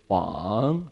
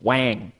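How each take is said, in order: First: The vowel is soft and gentle, not nasal. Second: The vowel is a hard, nasal 'a' sound. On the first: It is the Chinese word for king. The speaker calls it right. "very soft, very gentle" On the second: It is the name of a word processor brand. The speaker calls it wrong. "it's the name of a word processor"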